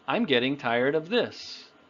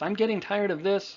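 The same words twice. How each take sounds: First: The phrase is said at a relaxed, normal speed. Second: The phrase is rushed out very quickly. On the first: The speaker calls it right. "The one I said" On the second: The speaker calls it wrong. "it's not about saying it faster. You don't have to say it fast"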